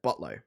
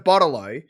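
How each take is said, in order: First: The syllables are run together quickly into two. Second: All three syllables are said clearly and fully. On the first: "we'll say bottle-o, like botlo" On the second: "So it's a bottle-o"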